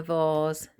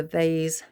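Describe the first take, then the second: First: Vase said as "vahz"; British vase pronunciation. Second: Vase said as "vayz"; alternative vase pronunciation. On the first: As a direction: say vase with a long ah, rhyming with cars. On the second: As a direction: say vase with an ay vowel, rhyming with days. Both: Shown as a demonstration. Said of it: "however you say it".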